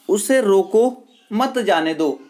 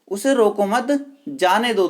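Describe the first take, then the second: First: There is a pause after रोको. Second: There is a pause after मत.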